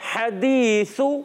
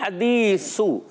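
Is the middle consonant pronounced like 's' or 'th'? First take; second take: th; s. First: The middle consonant sounds like a soft th. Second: The middle consonant sounds like a hissing s. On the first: The speaker calls it right. "تو ہم نے پڑھنا ہے حدیثو" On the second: The speaker calls it wrong. "سا کو سین سے بدل دیا"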